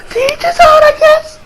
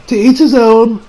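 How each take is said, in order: First: Mock wailing shrug. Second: Said in the usual way. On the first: Shrugging off the father's speech with a wailing "To each his own". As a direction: cry "To each his own" in hammed-up despair. Mock wail, then repeated plainly.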